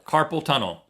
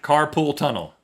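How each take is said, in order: First: The first word sounds like carpal. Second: The first word sounds like carpool. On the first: The speaker calls it right. "It's carpal" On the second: The speaker calls it wrong. "A lot of people say carpool tunnel"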